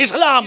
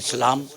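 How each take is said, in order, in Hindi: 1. शब्द बहुत ज़ोर से बोला गया है। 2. शब्द धीरे से बोला गया है। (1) "बड़ी जोर से बोले" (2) "धीरे से बोलेंगे"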